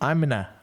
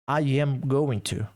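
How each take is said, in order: First: Going to is reduced to a short na. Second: Every word is said fully, with no contraction.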